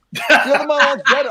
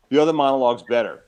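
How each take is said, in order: First: Higher, laughing disbelief at his own words; incredulous laugh. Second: Said in the usual way. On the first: Real, not acted. Retelling his failed audition to the host, incredulous laughing echo. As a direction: echo it back, amazed and laughing through it. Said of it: "I didn't even know the other monologue".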